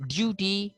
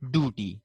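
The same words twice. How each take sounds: First: Duty as "DYOO-tee", higher; British pronunciation. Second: Duty as "doo-tee"; no y glide in duty; American pronunciation. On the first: Teacher contrasting two varieties, British "dyoo-tee" for duty. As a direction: say duty with a y before oo. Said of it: "while they say duty". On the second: Teacher showing how they say it, American "doo-tee" for duty. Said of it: "while they say". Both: Shown as a demonstration.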